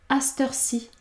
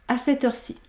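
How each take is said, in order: No difference in how they are said.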